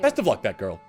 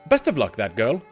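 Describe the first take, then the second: First: It is said without a British accent. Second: It is said in a British accent. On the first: The speaker calls it right. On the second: The speaker calls it wrong.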